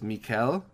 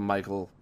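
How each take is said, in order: First: The name is said in a non-American way. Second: The name is said the plain American English way. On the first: The speaker calls it right. "I'm pretty sure it's Michaël" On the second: The speaker calls it wrong. "I called him Michael in the interview because sometimes I'm just a stupid American"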